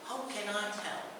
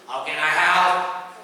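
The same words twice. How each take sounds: First: The voice falls at the end. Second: The voice rises at the end. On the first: The speaker calls it right. "How goes up, help goes down" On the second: The speaker calls it wrong. "You don't say, ... that would be quite rude"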